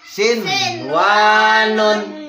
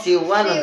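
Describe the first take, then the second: First: The n is pronounced clearly before the w. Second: The n merges into the following w sound. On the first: The speaker calls it right. "karena dalam satu kalimat dibaca sin wanun" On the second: The speaker calls it wrong. "yang tadi itu nun sukun ketemu dengan wow siwanun"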